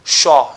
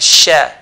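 First: The lips are pushed forward on the sh. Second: The lips stay relaxed on the sh. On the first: The speaker calls it wrong. "So it's not sha" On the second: The speaker calls it right. "don't need to move the lips forward"

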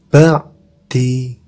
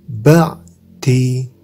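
Both takes have the same delivery.

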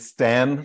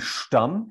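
First: The surname is said in an Americanized pronunciation. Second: The surname is said in its original pronunciation. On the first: This is how Americans usually say the name. "I can't ask that of Americans, and we're going with Stan" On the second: This is how the name is said at home. "Originally, it would be Stamm"

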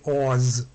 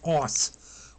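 First: The word ends with a buzzing z sound. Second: The word ends with a hissing s sound. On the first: The speaker calls it wrong. "our English habit would be to say AWS, you know, to have a Z sound" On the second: The speaker calls it right. "will be pronounced AWS"

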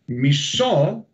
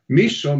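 First: The stress is on the last syllable. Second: The stress is on the first syllable. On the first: It means hate. "the accentuation is in the O" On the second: It means half. "If I change the accentuation on the I"

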